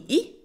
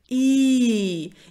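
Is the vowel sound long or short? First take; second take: short; long. First: The vowel is said short and clipped. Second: The vowel is said long and drawn out. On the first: The speaker calls it wrong. "Он не короткий, не И" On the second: The speaker calls it right. "И это длинный звук, его нужно потянуть"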